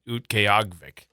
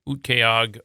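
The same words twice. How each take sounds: First: The final 'vik' syllable is clearly said. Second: The final 'vik' syllable is left off. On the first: The speaker calls it right. "there's a Vic at the end" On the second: The speaker calls it wrong. "I missed part of it"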